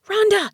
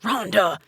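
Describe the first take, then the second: First: High, urgent hiss of a name; tense, high-pitched hissed call. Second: Mildly snarled name, only slightly raised; a touch of a snarl; understated angry snarl of a name. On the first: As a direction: hiss it sharply at someone walking off. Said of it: "Aunt Jerry hissed". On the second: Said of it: "he snarled". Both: A narrator's reading.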